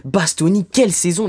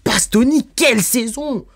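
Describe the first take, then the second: First: Said in the usual way. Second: Excited praise. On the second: Real, not acted. Vlogger raving to viewers about Bastoni's season, excited. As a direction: pitch jumps higher, marvelling at Bastoni.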